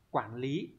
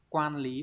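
First: "quản lý" with quản on a dipping, rising tone; right reading. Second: "Quan lý" with quan on a level tone, marked wrong; wrong reading. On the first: Teacher confirming the correct answer to students, dipping tone. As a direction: let "quản" dip then rise, the correct reading. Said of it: "đúng rồi". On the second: Teacher reading the wrong option to students, level tone. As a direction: say "Quan" flat and even, as the wrong choice. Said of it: "không phải này". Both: Shown as a demonstration.

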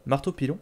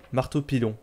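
First: "Marteau pilon?" with the end lifted as a question; questioning repeat. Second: Said in the usual way. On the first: Real, not acted. Player doubts the French weapon name, questioning rise on "Marteau pilon?".

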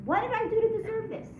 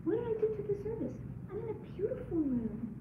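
First: High, louder self-pitying why-me; the bitter question after something bad happens; complaining. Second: High and soft, voice catching with tears; humbled amazement at your blessings; grateful wonder. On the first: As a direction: whine it like life has wronged you. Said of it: "We always say when something bad happens". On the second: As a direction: ask it in awe at all you've been given. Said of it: "What about?". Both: Shown as a demonstration.

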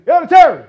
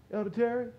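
First: "Elder Terry" yelled high and loud; "Elder Terry" shouted like waking him. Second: Softer spoken name "Elder Terry"; soft call. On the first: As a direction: bellow "Elder Terry" across the room. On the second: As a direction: say "Elder Terry" softly as to a neighbour. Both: Shown as a demonstration. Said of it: "I'm not gonna say".

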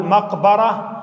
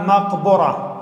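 First: مقبرة with a clear fatha: maq-ba-ra. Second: مقبرة with a clear damma: maq-bu-ra. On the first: Teacher showing the first correct reading of مقبرة, ba with fatha. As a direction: say مقبرة as maqbara, with an open a on the ba. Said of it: "بفتح الباء". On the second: Teacher showing the second correct reading of مقبرة, ba with damma. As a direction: say مقبرة as maqbura, with a rounded u on the ba. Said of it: "بضم الباء". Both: Shown as a demonstration.

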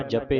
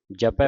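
First: ਜਪੇ with a plain short e ending, the wrong way; wrong reading. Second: ਜਪੈ with the open ai vowel at the end; correct reading. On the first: Teacher shows students the wrong reading, ਜਪੇ said as jape. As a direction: say ਜਪੇ as jape, the mistake to avoid. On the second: Teacher gives students the correct ਜਪੈ, with an open ai ending. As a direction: end ਜਪੈ on a broad ai, japai. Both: Shown as a demonstration. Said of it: "ਜਪੇ ਨਹੀਂ ਪੜ੍ਹਨਾ".

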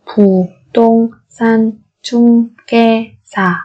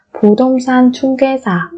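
First: Syllable by syllable. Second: Said in the usual way. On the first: Shown as a demonstration. Teacher models word syllable by syllable.

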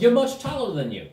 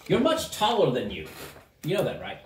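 First: High, animated gnome voice; insistent gnome. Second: Lightly voiced gnome, near usual pitch; musing gnome. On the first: Acted. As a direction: repeat it with a swooping emphasis. Gnome repeats it emphatically. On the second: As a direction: remark on it as an odd gnome. Gnome remarks, first take.

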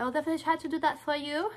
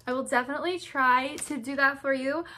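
First: Quick sing-song imitation of "I'll definitely try to do that for you"; quick mock replay of her own awkward line. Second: Odd sing-song. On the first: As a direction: parrot your own odd phrasing, fast. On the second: Real, not acted. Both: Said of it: "Why did I say it like that?".

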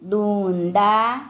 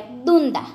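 First: દૂંદા drawn out, rising at the end; slow word demonstration. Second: Said in the usual way. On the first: Shown as a demonstration. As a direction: stretch both syllables of દૂંદા for learners. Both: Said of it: "આપણે શબ્દો જોઈએ".

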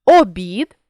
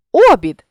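First: Обід with final БІД stressed; stress on last syllable. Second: Обід with О punched high and loud; stress on first syllable. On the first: Teacher means a meal, Обід stressed on БІД. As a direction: land on БІД ending Обід. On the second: Teacher means a wheel rim, обід stressed on О. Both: Shown as a demonstration. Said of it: "залежно від наголосу".

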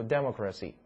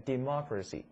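First: Democracy wrongly stressed on the first syllable, DEM-ocracy; wrong word stress. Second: Democracy stressed on the second syllable, de-MOC-racy; correct word stress. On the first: Teacher showing students the mistaken democracy, stressed DEM-ocracy. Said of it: "否则你读democracy听不懂". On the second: Teacher modelling democracy for students to repeat, stressed de-MOC-racy. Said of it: "来跟我读一遍". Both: Shown as a demonstration.

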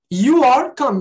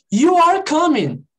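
First: "You are coming" louder, stress on "You"; emphatic model. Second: "You are coming" slow, higher and louder; slow, emphatic model. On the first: Teacher repeats the statement more loudly. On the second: Teacher demonstrates the statement slowly and loudly. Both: Shown as a demonstration. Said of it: "Primeiro aqui, ó".

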